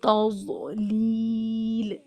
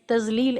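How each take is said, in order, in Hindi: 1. बीच का व्यंजन भारी और ज़ोरदार (emphatic) है। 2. बीच का व्यंजन हल्का z जैसी आवाज़ है। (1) "तौज़लील इस तरह पढ़ना है" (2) "हम लोग शायद तजलील ऐसे पढ़ देते थे। ... जो गलत है।"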